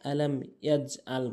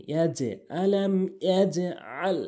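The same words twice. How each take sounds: First: ইয়াজআল quick, no bounce on j, plain hamza; common mispronunciation. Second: Slow ইয়াজআল, bounced j then throaty ain; correct qalqalah. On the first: Teacher showing most people's mistake, plain ইয়াজআল. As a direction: say ইয়াজআল lightly without echo or ain. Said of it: "অধিকাংশ লোক আলাম ইয়াজআল বলে". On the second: Teacher modelling for learners, echoed j in ইয়াজআল. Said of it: "এভাবে উচ্চারণ করবেন". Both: Shown as a demonstration.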